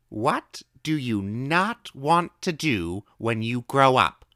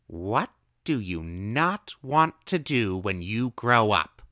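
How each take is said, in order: First: High, slow, drawn-out question; old woman asking. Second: Slow, drawn-out question; old woman asking. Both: A narrator's reading. Old woman slowly asking the boy her odd question. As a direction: ask it slowly like a riddle.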